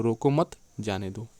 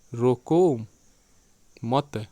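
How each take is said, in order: First: रोको मत together, then जाने दो; pause after मत. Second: Loud रोको, then a long break before मत; long pause after रोको. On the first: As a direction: break briefly after मत, before जाने दो. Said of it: "मत के बाद विराम करके पढ़ें". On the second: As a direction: split रोको and मत widely apart. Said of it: "विराम करके पढ़ें तो एक अर्थ होगा". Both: Shown as a demonstration.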